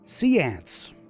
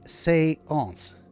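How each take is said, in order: First: The word sounds like 'sea ants'. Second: The first vowel sounds like 'ay'. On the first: This is the old pronunciation from the song. "which apparently was how those fellas pronounced seance" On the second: This is the original French pronunciation. "the proper French pronunciation ... it pronounces it as an A"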